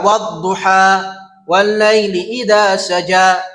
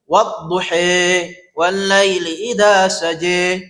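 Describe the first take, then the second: First: The final vowel of duha sounds like open a. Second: The final vowel of duha sounds like e. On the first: "Ada yang dibaca dengan fath, fathah" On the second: "Imalah dibaca e"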